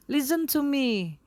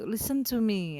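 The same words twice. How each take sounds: First: Higher, louder, slow order to listen; firm, loud call. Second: Said in the usual way. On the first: Shown as a demonstration. Ignored speaker to crowd, loud firm demand. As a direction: demand they finally listen. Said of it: "agak lebih keras".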